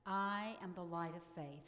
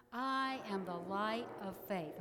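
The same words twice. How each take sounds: First: Said in the usual way. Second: Louder, firm declaration; said like you mean it. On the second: Shown as a demonstration. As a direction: proclaim it with conviction. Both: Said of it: "say them like you mean it".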